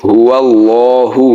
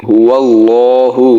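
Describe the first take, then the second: Both takes have the same delivery.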